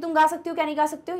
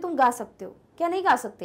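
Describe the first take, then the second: First: The sentence runs on without a pause. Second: There is a pause inside the sentence.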